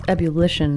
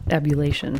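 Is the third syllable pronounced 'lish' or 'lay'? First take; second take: lish; lay. First: The third syllable sounds like 'lish'. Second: The third syllable sounds like 'lay'. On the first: The speaker calls it right. "It's ebullition" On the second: The speaker calls it wrong. "I was saying it wrong"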